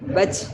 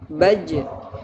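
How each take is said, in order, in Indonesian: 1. Bunyi akhir berdesis. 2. Bunyi akhir tidak berdesis. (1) "itu berdesis" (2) "Harusnya tidak boleh berdesis"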